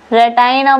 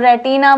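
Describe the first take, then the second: First: The second syllable has an 'eye' vowel. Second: The second syllable has a short 'i' vowel. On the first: "रेटाइना बोल लो" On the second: "रेटिना बोल लो"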